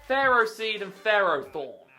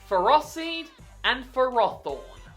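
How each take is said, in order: First: The first part sounds like 'pharaoh'. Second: The first part does not sound like 'pharaoh'. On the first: The speaker calls it wrong. "they're not Egyptian pharaohs" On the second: The speaker calls it right. "I call it"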